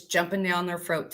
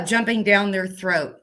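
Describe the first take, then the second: First: "throat" with an f in place of th; mispronounced throat. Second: "throat" with a clear th sound; corrected pronunciation. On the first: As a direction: slip on "throat" so it comes out "froat". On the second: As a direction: start "throat" on th, not f. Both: Real, not acted. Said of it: "my English is not so good".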